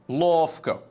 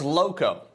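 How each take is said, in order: First: The name is said with an f sound. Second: The name is said with no f sound. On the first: The speaker calls it wrong. "Especially Eastern Europeans, they tend to call me Lofko" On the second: The speaker calls it right. "It's Loco. Just Loco"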